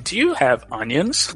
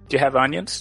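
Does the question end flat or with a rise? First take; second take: rise; flat. First: The question ends with a rising pitch. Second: The question ends with flat intonation.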